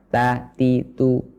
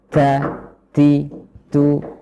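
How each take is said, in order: First: The t sounds have no breath after them. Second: The t sounds have heavy breath after them. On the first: "mengucapkannya tanpa hembusan udara adalah kurang tepat" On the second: "dengan hembusan udara terlalu banyak juga kurang tepat"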